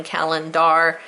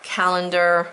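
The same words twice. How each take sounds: First: "calendar" with a clear "dar" ending; spelling pronunciation. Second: Said in the usual way. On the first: Shown as a demonstration. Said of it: "how I had to ingrain it". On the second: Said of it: "even though we say calendar".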